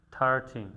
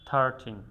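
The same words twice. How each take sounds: The two takes are said the same way.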